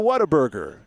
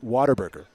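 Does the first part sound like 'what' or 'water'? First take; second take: what; water. First: The first part sounds like 'what'. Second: The first part sounds like 'water'. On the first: It follows the written spelling. "because that's how it's spelled" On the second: It is the local West Texas way. "if you want to say it like a true Texan"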